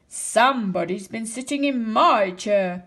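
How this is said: It is said in a big, deep voice. A large father bear is speaking. "Papa Bear said in a great big voice"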